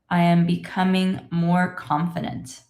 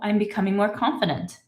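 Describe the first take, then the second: First: It is read slowly and carefully. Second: It is read at a normal speaking speed. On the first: "let's read this together slowly" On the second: "I will read it in my normal speed"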